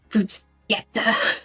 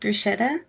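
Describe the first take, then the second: First: It is said with an Italian pronunciation. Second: It is said with an English pronunciation. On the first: The speaker calls it right. "the waitress was like" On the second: The speaker calls it wrong. "I mispronounce Italian words like so much"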